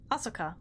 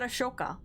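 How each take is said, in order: First: Asuka said with a clean "s" sound; Asuka with plain S. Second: Ashoka said with a "sh" in the middle. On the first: Streamer doubts the pronunciation of a character's name, Asuka with plain S. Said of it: "I think I'm pronouncing that wrong". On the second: Streamer tries another pronunciation of the name, Ashoka with SH. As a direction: say Ashoka with SH instead of S. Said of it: "Or is that Ashoka?". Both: Shown as a demonstration.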